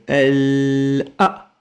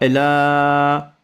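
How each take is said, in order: First: A short cut separates the final a. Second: The sounds run together without a break. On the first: The speaker calls it right. "C'est elle a" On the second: The speaker calls it wrong. "Pas elle a. J'ai pas dit ala"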